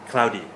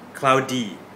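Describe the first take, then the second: First: The word is said quickly at natural speed. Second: The word is said slowly and very clearly. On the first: "that was natural speed, native speed" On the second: "I'll say it very clearly to understand"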